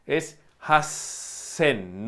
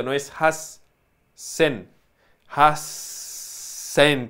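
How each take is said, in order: First: "hasen" said very slowly with the s held long and air flowing. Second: "hasen" said slowly with the air stopped before "sen"; wrong cut s. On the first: Teacher showing the s of "hasen" is not cut off. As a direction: stay on the hissing s before "sen". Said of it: "Aquí sí que sigue el flujo del aire". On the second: Teacher contrasting "hasen" said with the air wrongly cut. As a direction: break the airflow at the s as the wrong way. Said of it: "no interrumpido". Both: Shown as a demonstration.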